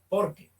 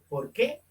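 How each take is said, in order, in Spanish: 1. Se dice plano, sin entonación de pregunta. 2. Se dice con entonación de pregunta. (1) "una sola palabra, entonces no se tilda" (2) "se pronuncia interrogativamente"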